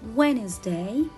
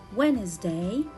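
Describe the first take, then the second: First: The d sound is left out. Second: The d sound is left out.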